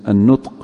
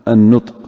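Both takes have the same delivery.

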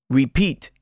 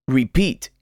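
The two takes are said the same way.

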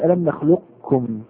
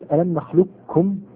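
First: Some q quality remains before a light k. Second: The q vanishes into a doubled, heavy k. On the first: "تكون الكاف هنا مسهلة يعني ليست مثقلة مخففة" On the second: "ننتقل إلى الكاف مباشرة المشددة"

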